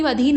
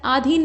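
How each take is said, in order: First: अधीन with short opening a; correct form. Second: आधीन with long opening aa; wrong form. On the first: Teacher correcting it, अधीन starting with short a. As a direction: say अधीन as "adheen". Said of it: "अधीन होता है". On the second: Teacher showing the mistake, आधीन starting with long aa. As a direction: say आधीन as "aadheen". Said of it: "नहीं अधीन होता है". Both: Shown as a demonstration.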